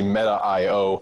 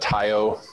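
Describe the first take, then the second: First: The name is said as Meta, then dot io. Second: The name is run together as one short word. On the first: "but it was actually Meta.io" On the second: "people used to call it Matio. That was a way to pronounce it"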